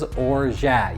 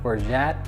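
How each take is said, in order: First: The word ends without a final T sound. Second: The word ends with a final T sound. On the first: "but it is orgeat" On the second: "You can add a little T on the end"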